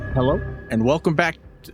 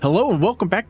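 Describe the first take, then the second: First: It is said calmly, with ordinary energy. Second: It is said with very high, bubbly energy.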